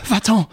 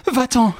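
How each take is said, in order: First: Higher, louder angry command; angry shout; furious dismissal. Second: Even higher, louder repeated command; escalating angry shout; furious dismissal, pushed harder. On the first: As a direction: drive her out of the room. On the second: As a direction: push her out, harder. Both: A narrator's reading. Enraged woman drives rival away.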